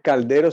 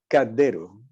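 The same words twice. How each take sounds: First: The L before the D is clearly pronounced. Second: The L is dropped and the D doubled. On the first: "No dice caldero" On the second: "sino caldero"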